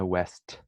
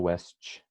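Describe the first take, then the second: First: The word ends in a plain, clipped T sound. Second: The word ends in a 'tch' sound after the T. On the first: The speaker calls it right. "fazer o T e acabou" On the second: The speaker calls it wrong. "Não fala west, as pessoas vão não vão te entender"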